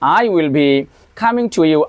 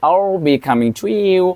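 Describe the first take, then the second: First: I will is said as two full words. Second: I will is contracted to one syllable. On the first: The speaker calls it wrong. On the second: The speaker calls it right.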